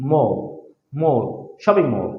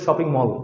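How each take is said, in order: First: "মল" with a rounded "o" vowel. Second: "shopping মল" with an open "aw" in "মল"; everyday Bangla-style "shopping মল"; common mispronunciation. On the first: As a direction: say "shopping মল" with "ও" in "মল". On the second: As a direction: say "মল" with Bengali "অ", not "ও". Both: Shown as a demonstration. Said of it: "আসলে shopping মল হবে না".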